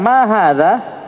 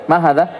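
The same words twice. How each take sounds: First: "Ma hadha?" slow, with a clear rising question tune; question intonation. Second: "Ma hadha?" read straight, level, with no question rise; read flat. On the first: Teacher showing students how a question sounds, slow rising tune. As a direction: ask "Ma hadha?" slowly and lift the end like a real question. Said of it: "Kan beda orang bertanya". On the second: Teacher showing the wrong flat reading to students, no rise. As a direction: say "Ma hadha?" flatly, as if only reading it out. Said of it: "Kan orang kan baca lurus nih". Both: Shown as a demonstration.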